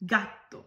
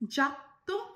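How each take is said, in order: First: The first sound is a hard g sound. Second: The first sound is a soft j sound. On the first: The speaker calls it right. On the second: The speaker calls it wrong.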